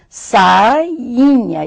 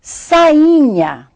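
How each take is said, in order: First: "Sainha" broken into sai and inha; syllables separated. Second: Said in the usual way. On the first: Shown as a demonstration. Teacher showing the double letter I, "Sainha" split as sai-inha. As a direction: say "Sainha" in two parts, sounding the I twice. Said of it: "nós temos duas vezes a letra I".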